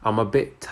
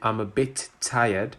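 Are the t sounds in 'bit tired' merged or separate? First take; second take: merged; separate. First: The two t sounds merge into one. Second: Both t sounds in 'bit tired' are pronounced. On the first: The speaker calls it right. "we just say" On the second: The speaker calls it wrong. "instead of saying"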